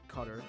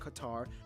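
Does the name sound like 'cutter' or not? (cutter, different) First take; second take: cutter; different. First: The name is said to sound like 'cutter'. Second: The name is said not sounding like 'cutter'. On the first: The speaker calls it right. "that's how you pronounce it" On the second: The speaker calls it wrong. "not Qatar"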